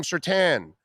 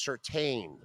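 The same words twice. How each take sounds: First: Surtain with TAN at the end; mistaken pronunciation. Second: Surtain slowly, with TAIN at the end; corrected pronunciation. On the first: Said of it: "we were calling him Surtain". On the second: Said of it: "No, no, no, it's Surtain". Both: Shown as a demonstration.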